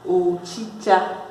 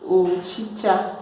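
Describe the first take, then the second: No difference in how they are said.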